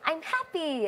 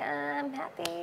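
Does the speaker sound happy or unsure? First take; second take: happy; unsure. First: It sounds genuinely happy. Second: It sounds unsure and doubtful.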